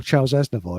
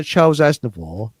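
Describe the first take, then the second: First: the singer's name said as "Azna-voice"; joke mispronunciation. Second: Said in the usual way. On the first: Retold or imitated. Joking about an old nickname for the singer, the name mispronounced as "Azna-voice". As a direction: end the name like the English word "voice". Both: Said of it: "as they used to call him".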